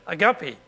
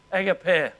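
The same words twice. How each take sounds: First: Agape said as a-GAH-pee, American style; American agape, stress on the middle, ending -pee. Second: Agape said as AG-a-pay; agape with stress on the first syllable, ending -pay; Australian agape. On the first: Retold or imitated. Preacher imitating how Americans say agape. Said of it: "or if you're an American". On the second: Shown as a demonstration. Preacher giving the Australian way to say agape. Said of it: "Americans call it agape".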